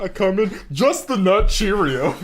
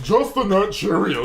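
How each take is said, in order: First: High, slow, laughing imitation; imitating him through laughter; laughing mock quote. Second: Mock imitation of friend. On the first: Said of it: "That's literally what I walked back into". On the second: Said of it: "this man is just".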